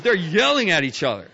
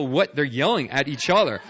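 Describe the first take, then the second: First: "yelling" punched high and loud; stress on YELLING. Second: Emphasis on "what", the rest carried along; stress on WHAT. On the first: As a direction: hit "yelling" hard, then fall away. Stresses that yelling itself was clear. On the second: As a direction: lean on "what". Sets unknown words against obvious yelling. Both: Real, not acted.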